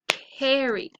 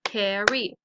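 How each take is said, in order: First: Said in the usual way. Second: "carry" in two beats, CAR, then RY; syllable-by-syllable "carry"; split into syllables. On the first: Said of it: "So let's practice them". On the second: Shown as a demonstration. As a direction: break "carry" between its syllables. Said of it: "two syllables".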